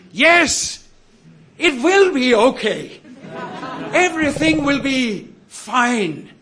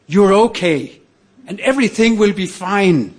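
First: High-pitched re-enacted triumphant cry; exultant shout. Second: Raised, emphatic reassurance; reassuring. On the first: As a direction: call it out high, as if at the top of your voice. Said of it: "at the top of my voice, I s-, shouted". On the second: Retold or imitated. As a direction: give firm encouragement in a higher pitch. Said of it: "what he was saying".

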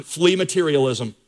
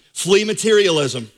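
First: Said in the usual way. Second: Flee materialism said slowly, each word pressed down; slow emphatic repeat. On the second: Shown as a demonstration.

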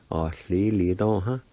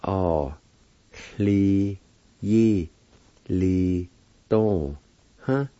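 First: Said in the usual way. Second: "Oh, li, yi, li, dong, huh" with long gaps; each syllable of "Oh, li, yi, li, dong, huh" held alone; broken into syllables. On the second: Shown as a demonstration. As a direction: sound out "Oh, li, yi, li, dong, huh" slowly. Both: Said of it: "It's pronounced like this".

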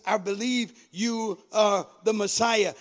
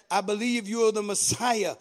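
First: Each word set apart, measured declaration. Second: Said in the usual way. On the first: A narrator's reading. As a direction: spell out the belief word by word. Repeated slowly for emphasis.

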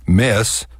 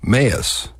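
First: Said in the usual way. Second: Mess split in two, "may-us"; Texas diphthong. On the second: Shown as a demonstration. Demonstrating Texas dialect, two-syllable mess. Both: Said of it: "the Texas diphthong".

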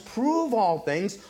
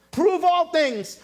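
First: Said in the usual way. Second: Prove ALL things, all hit high and louder; preacher driving home all in Prove all things; stress on all. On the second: Shown as a demonstration. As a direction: lean hard on the word all.

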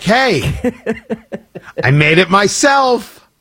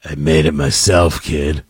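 First: Mock-proud, drawn-out announcement; proud homemade offering. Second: Creepy, very low growled offer; Harrison Ford. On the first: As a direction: present it slowly as your own handiwork. Host offering homemade drink to kids. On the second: Pretend. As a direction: drop way down and make it creepy. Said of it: "just with the right amount of creepy".

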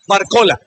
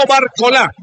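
First: Barcola without stress on the final "a", "bar-CO-la"; corrected pronunciation. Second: Barcola stressed on the last syllable, "bar-co-LA"; wrong final stress. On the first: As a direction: say Barcola lower, accent before the last syllable. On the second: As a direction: show the mistaken Barcola with an accented final "a". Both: Shown as a demonstration. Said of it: "la pronunciación de estos dos astros".

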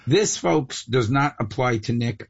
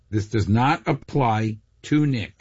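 First: Said in the usual way. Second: "not apply to Nick" spaced out slowly; slow, deliberate stress on "not" and "Nick"; emphatic repeat. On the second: Real, not acted.

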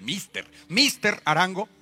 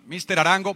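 First: Slow, higher emphasis on "Mister"; spiced-up Mister. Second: Said in the usual way. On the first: Retold or imitated. Prosecutor calling up Arango, spiced-up slow "Mister". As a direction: relish "Mister", drawn out as an official summons. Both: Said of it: "pa tenerle más picante".

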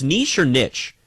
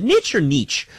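First: Niche said first as NEESH, then as NITCH; two pronunciations of niche. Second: Niche said first as NITCH, then as NEECH; two pronunciations of niche. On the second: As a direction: contrast short-i "niche" with long-ee "niche". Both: Shown as a demonstration. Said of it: "What do you say, Carlos?".

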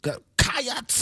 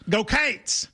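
First: "Cats" drawn out into two vowel sounds, ka-ahts; "Cats" stretched into two syllables, rising. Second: "Cates" said with a long ay vowel, like kates; one syllable, "Cates" rhymes with gates; Kentucky way. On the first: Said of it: "You're adding a syllable". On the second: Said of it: "in Kentucky would go". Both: Shown as a demonstration.

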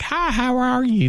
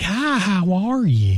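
First: Lilting high greeting, mocking the accent; high mock Oklahoma voice. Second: Mock Oklahoma greeting. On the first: Mocking a gorgeous man who sounds like this. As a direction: chirp the hello up high. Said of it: "is like". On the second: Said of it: "none of them are like".

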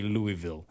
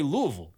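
First: Louisville said as LOO-ee-vill; Louisville with a full "vill" ending; disliked pronunciation. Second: Louisville said as LOO-uh-vul; local pronunciation. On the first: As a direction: give Louisville three clear syllables, with "ee" in the middle. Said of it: "You don't say Louisville". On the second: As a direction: blur the middle and end of Louisville. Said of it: "you say Louisville". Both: Shown as a demonstration.

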